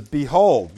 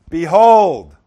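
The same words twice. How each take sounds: First: A ringing, loud "Behold."; emphatic proclamation. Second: "Behold!" yelled out, much louder and higher. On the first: Acted. Preacher reading scripture to the congregation, a loud proclamation. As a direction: proclaim "Behold." to the whole room. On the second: Shown as a demonstration. Preacher showing the congregation how emphatic the word is, yelled. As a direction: shout "Behold!" like waking a crowd. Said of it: "It's like if you yelled".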